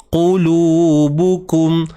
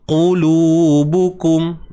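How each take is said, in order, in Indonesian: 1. Konsonan pertama adalah q yang dalam, di belakang. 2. Konsonan pertama adalah q yang dalam, di belakang.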